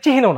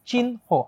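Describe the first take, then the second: First: The h sound comes before the n. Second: The n sound comes before the h. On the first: The speaker calls it wrong. "এর উচ্চারণ কিন্তু চিহ্ন না" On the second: The speaker calls it right. "আগে ন পরে হ"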